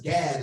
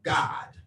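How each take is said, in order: First: The vowel sounds like the one in cat. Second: The vowel sounds like the one in cot. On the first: This is the usual pronunciation. "what we pronounce as Gad" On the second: This is the proper original pronunciation. "how I like to pronounce it, which is proper"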